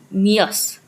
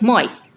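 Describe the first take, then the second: First: The vowel is a long E sound. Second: The vowel is an I sound. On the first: This is the older Middle English pronunciation. "Then mias" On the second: This is the Modern English pronunciation. "Now it's mice. Long E turned to I"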